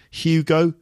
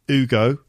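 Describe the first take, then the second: First: The name begins with an h sound. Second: The name begins without an h sound.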